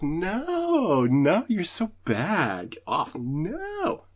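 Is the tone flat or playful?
playful. It is said in a playful, teasing tone.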